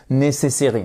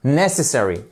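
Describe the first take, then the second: First: Necessary said flat, no first-syllable stress; wrong stress. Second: Necessary with the first syllable clearly stressed. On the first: Teacher shows how learners mis-stress necessary. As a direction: model the mistake on necessary. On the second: Teacher gives the correct stressed Necessary. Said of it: "Une fois que vous faites le stress". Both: Shown as a demonstration.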